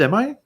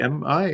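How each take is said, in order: First: It is said at a normal pace. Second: It is said slowly and drawn out.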